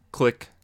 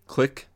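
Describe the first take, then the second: No difference in how they are said.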